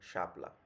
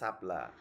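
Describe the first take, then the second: First: The word begins with a palatal sh sound. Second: The word begins with a plain hissing s sound. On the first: This is the standard pronunciation. The speaker calls it right. "প্রমিত উচ্চারণের ক্ষেত্রে কিন্তু শাপলা শ- তালবর্ষ" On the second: This is a regional way of saying it. The speaker calls it wrong. "ওই বঙ্গের দিকে মনে হয় সাপলা এ- এরকম বলে"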